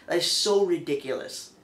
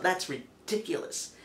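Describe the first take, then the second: First: Exasperated emphasis on so; stress on so. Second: Said in the usual way. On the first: Real, not acted. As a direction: lean into the word so. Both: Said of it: "just to stress the point".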